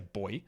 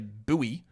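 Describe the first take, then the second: First: It is said exactly like the word 'boy'. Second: It is said with an American pronunciation. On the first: "I would just say boy" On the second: "as Americans would say"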